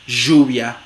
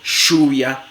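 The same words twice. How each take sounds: First: The consonant is a voiced 'zh' fricative. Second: The consonant is a voiceless 'sh' fricative. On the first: "fricativa postalveolar sonora" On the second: "fricativa postalveolar sorda, sh, como en show"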